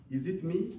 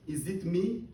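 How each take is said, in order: Both takes have the same delivery.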